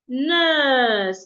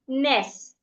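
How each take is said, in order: First: The vowel is long. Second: The vowel is short. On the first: The speaker calls it right. "The U N R again makes a long sound" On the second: The speaker calls it wrong. "not ness"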